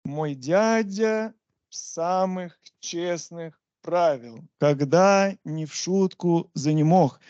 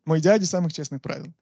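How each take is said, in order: First: Slow, measured beat with gaps between feet; chant-like metrical scansion, stretched out; scanned foot by foot. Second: Said in the usual way. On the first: Shown as a demonstration. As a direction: recite "Мой дядя самых честных правил" slowly, marking out each foot. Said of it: "you measure it like this". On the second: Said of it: "if we take Pushkin".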